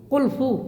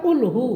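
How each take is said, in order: First: The consonant after 'qul' is an f sound. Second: The consonant after 'qul' is an h sound. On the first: The speaker calls it wrong. "আসলে কুলফু না" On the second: The speaker calls it right.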